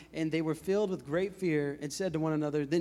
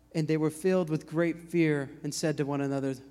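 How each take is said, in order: No difference in how they are said.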